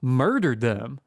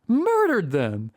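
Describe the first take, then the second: First: Said in the usual way. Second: MURDERED drawn out high; dramatic repeat. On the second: Retold or imitated. Storyteller repeating the shocking reveal, MURDERED stretched high for drama. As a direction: stretch "Murdered" slowly on a high, held pitch.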